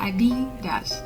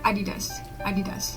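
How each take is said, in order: First: The name is said in an American accent. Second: The name is said in a British accent. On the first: "ถ้าออกแบบอเมริกันก็จะบอกว่า" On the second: "ถ้าเป็นสำเนียงแบบอังกฤษเขาจะ... พูด"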